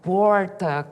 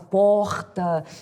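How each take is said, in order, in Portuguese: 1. Sotaque de Taubaté, do interior, bem carregado, com r forte. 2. Sotaque carioca, com r de carioca. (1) "ela era de Taubaté, então ela falava bem carregado" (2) "com S de carioca, R de carioca"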